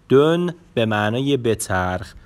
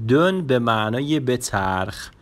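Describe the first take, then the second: No difference in how they are said.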